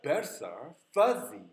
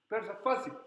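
First: The stressed words are drawn out slowly. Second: The whole phrase is said quickly.

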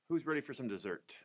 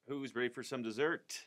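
First: It is said plainly and quickly, without flourish. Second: It is said with more expression and personality. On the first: The character stays in the background. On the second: The character draws more attention.

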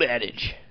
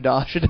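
First: It is said with the ordinary English pronunciation. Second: It is said with a French-sounding pronunciation. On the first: The speaker calls it right. "The old adage" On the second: The speaker calls it wrong. "I would have gone through life being like Adage"

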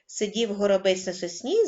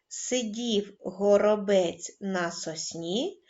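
First: It is spoken at the fastest pace. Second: It is spoken at a calm, slow pace. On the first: "кожного разу пришвидшуючи темп" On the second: "Починаємо читати спокійно"

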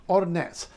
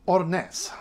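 Both takes have the same delivery.

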